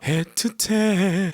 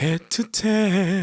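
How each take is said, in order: First: It is said with lots of breath flowing. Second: The same.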